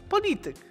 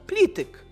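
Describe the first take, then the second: First: Every vowel of the word is pronounced. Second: The first vowel of the word is dropped. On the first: The speaker calls it right. "zamiast polityk" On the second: The speaker calls it wrong. "słyszałam plityk zamiast polityk"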